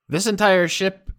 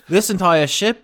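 First: It is spoken in the speaker's normal accent. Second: It is spoken in a put-on British accent. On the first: The speaker calls it wrong. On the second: The speaker calls it right.

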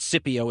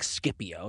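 First: The C is said as a soft S sound. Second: The C is said as a hard K sound. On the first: This is the widely used modern way. "But Scipio is also correct and widely used" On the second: This is how the ancient speakers said it. "they would have used a hard sound like Scipio"

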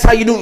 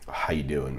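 First: The greeting is said with lively, high energy. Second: The greeting is said with flat, low energy. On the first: The visitor arrived full of energy. "real energetic" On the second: The host does not match the visitor's energy. "I wouldn't be like"

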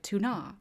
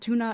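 First: The name is said with a fancy, exotic sound. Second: The name is said plainly, like the fish. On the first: The speaker calls it wrong. "pronouncing it fancy" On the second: The speaker calls it right. "Túna is pronounced the way it is"

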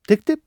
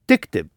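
First: It is said as a question. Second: It is said as a statement.

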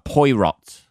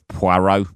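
First: The name is said in a posh way. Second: The name is said in a plain way.

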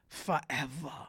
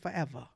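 First: It is said in an imitated put-on voice. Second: It is said in the speaker's normal voice.

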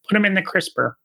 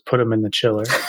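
First: It is said in a Kermit the Frog voice. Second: It is said in his normal voice.

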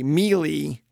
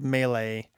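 First: The word is pronounced as its spelling suggests. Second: The word has its usual standard pronunciation. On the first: The speaker calls it wrong. "I feel like Dracula when I still say melee" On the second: The speaker calls it right. "instead of melee"

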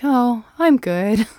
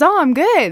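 First: The voice sounds flat and unenthusiastic. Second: The voice sounds bright and cheerful. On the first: The person is not actually fine. "Okay. No. You know" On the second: The person really is fine.

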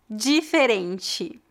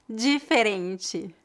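Both takes have the same delivery.

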